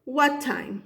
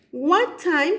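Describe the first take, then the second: First: Said in the usual way. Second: What time lifted high on both words; question rise on What time. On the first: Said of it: "yo he usado what". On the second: Shown as a demonstration. Teacher modelling to students, rising question. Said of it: "primero siempre voy a poner".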